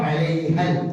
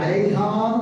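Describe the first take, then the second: First: The vowel is short and runs straight into l. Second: The final vowel is stretched out long. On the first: The speaker calls it right. "നേരെ എവിടേക്ക് ചാടണം? ലാബിലേക്ക് ചാടണം" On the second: The speaker calls it wrong. "ഇങ്ങനെ അലൈഹാന്ന് നീട്ടാൻ അലിഫ് കണ്ടില്ല"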